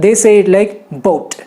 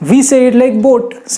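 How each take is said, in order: First: "boat" with a gliding ow sound, slowly; American boat. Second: "boat" said with a flat, simple o; Indian boat. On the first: Teacher showing students the US way, slow and clear. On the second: Teacher showing students the Indian way, plain. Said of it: "We say it like boat, simple". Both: Shown as a demonstration.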